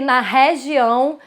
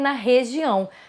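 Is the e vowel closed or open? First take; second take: open; closed. First: The e vowel is open. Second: The e vowel is closed. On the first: The speaker calls it wrong. "você não vai ver" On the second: The speaker calls it right. "Ele vai falar que na região"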